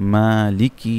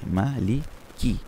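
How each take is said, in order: First: The syllables run together quickly without pauses. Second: Each syllable is said separately with short pauses. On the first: "হরকতের উচ্চারণগুলো তাড়াতাড়ি পড়তে" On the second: "আমরা যদি হরফে হরফে মাখরাজগুলো আমরা পড়ি"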